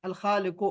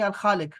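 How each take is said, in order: First: खालिक with a final u vowel, read as खालिको; पेश on the last letter of खालिक, voiced out as u; wrong final pesh. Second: खालिक ends cleanly on k, no vowel after it; correct stop, no u. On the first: Teacher reads the word the way not to say it, with the final u. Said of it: "लेकिन हम इसको ऐसे नहीं पढ़ेंगे". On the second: Teacher gives the correct reading to the student, ending on k. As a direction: say अल खालिक with no pesh at the end. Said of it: "हम इसको ऐसे नहीं पढ़ेंगे". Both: Shown as a demonstration.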